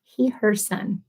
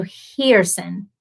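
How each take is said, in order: First: "He, her son" in three separate slow parts; syllable-by-syllable pronunciation. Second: Hearson said slowly as "HEER-sun"; careful pronunciation. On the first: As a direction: sound out "He, her son" carefully. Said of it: "Best I can do". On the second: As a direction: run Hearson together as two syllables. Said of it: "I hope I'm getting it right". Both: Shown as a demonstration.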